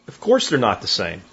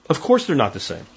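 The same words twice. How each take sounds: The two takes are said the same way.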